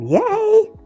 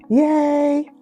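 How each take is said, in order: First: The exclamation sounds lively and excited. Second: The exclamation sounds flat and unexcited. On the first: The speaker calls it right. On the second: The speaker calls it wrong.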